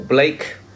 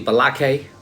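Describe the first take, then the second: First: The name is said as one syllable. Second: The name is said with an added vowel. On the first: The speaker calls it wrong. "Calling people Blake" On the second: The speaker calls it right. "when it's really Balake"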